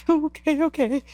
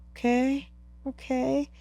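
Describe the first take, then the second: First: High, whimpering retold agreement; mock tearful. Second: Soft, high-pitched, tentative; tentative acceptance. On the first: Climber still crying after guide's reassurance, mock tearful. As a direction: give in through imitated tears. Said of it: "with all that emotion, all the tears". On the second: Retold or imitated. Climber seeing sun come out, tentative acceptance. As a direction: agree gingerly, voice small and high. Retold calming once sun came out.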